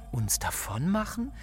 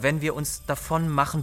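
First: Startled echo. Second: Said in the usual way. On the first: Acted. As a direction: echo it in disbelief, lifting sharply at the end. She echoes the proposal, startled.

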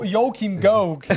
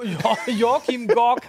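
First: "Joachim Gauck" said slowly with a laugh, "Gauck" like the English voice says it; slow, laughing copy of the machine's "Joachim Gauck"; Alexa's pronunciation. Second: "Jo-, Joachim Gork" drawn out slowly, "Gork" said with a hard o and no au; Alexa's mispronunciation. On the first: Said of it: "Den kann er". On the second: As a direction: stretch out "Joachim Gork" the way the machine mangled "Gauck". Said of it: "hat sie gesagt". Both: Retold or imitated.

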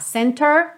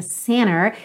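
First: "center" with a clear t after the n; T pronounced. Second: "center" said as "cenner"; American dropped T. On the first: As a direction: sound the t in "center", CEN-ter. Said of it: "se você quiser falar center". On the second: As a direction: leave the t out of "center", American style. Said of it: "omitindo a letra T". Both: Shown as a demonstration.

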